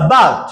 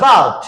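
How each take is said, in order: The two takes are said the same way.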